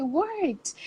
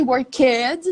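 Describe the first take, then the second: First: "worked" as one syllable, ending in a t; correct -ed ending. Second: Put-on "work, kids" as two syllables, work-ed; wrong -ed ending. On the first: Teacher showing students what Americans really say, correct -ed ending. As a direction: say "worked" with no extra vowel before the final sound. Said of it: "they say". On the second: Teacher showing students what Americans don't say, wrong -ed ending. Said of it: "They don't say". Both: Shown as a demonstration.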